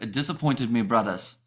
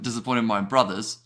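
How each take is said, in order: First: It is said in a Jamaican accent. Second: It is said in the speaker's normal accent.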